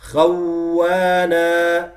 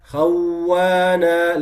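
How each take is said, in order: Both takes have the same delivery.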